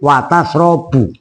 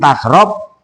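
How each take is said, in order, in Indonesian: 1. Kata kerja ini berakhir dengan vokal u di akhir. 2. Kata kerja ini berakhir pada konsonan mati. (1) "tapi watasrobu" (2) "enggak dibaca jazm tasrob"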